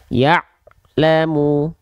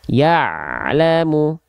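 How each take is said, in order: First: The sound breaks off before the second part. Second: The sound flows on without any break. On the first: The speaker calls it wrong. "kesalahan putus suara dari ain sukun" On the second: The speaker calls it right. "dia sedikit mengalir suaranya"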